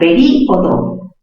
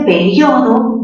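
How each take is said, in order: First: The stressed i is its own syllable: pe-rí-o-do. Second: The stress falls on the diphthong syllable: pe-rio-do. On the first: "cerrada con mayor fuerza de voz en contacto con una abierta" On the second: "mayor fuerza en la sílaba rio"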